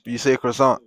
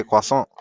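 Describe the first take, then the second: First: Croissant said kruh-SONT, English style; mock the English way, croissant as kruh-SONT; anglicized croissant. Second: Croissant said kwa-SAHN, French style. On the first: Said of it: "You don't even say croissant". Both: Shown as a demonstration.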